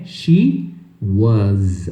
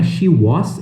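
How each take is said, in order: First: The word ends with a buzzing Z sound. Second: The word ends with a hissing S sound. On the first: The speaker calls it right. "o som do final é um som de Z" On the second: The speaker calls it wrong. "não é she was"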